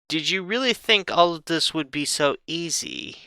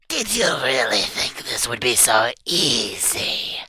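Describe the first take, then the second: First: It is said in the reader's normal voice. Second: It is said in a put-on character voice.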